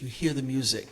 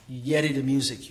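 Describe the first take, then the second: First: Said in the usual way. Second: Gullah-accented line. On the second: Shown as a demonstration. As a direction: say it in Gullah patois. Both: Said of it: "Gullah, I would say patois".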